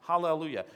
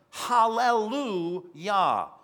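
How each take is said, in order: First: Said in the usual way. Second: Loud, drawn-out Hallelujah, pitched up; roaring shout. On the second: Acted. Preacher voicing the multitude in heaven, loud slow shout. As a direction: proclaim it slowly like a heavenly shout. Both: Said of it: "They're in heaven roaring and shouting".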